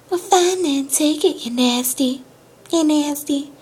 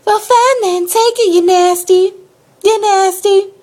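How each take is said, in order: First: High, hushed country lady impression; soft country accent. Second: High, loud country lady impression; yelled country accent. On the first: Storyteller echoes tow lady's insult, quieter country accent. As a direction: echo her country twang small and high. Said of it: "in her little accent". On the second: Storyteller replays tow lady's insult, loud country-accent yell. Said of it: "Let's go back. It was like".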